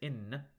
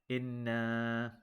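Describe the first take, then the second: First: The final vowel is dropped, ending short. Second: The final vowel is held for two counts. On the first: The speaker calls it wrong. "If you just say in, you are omitting this alif sukun" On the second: The speaker calls it right. "you have to hold that to two counts"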